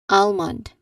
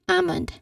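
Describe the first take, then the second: First: The L sound is pronounced. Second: The L sound is silent. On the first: The speaker calls it wrong. "not almond. People commonly mistake mistakenly pronounce it as almond" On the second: The speaker calls it right. "So we pronounce it again as almond"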